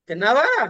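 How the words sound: It is said with a surprised, reproachful tone. Expresses surprise or disapproval at the eating. "కొంచెం మార్చి"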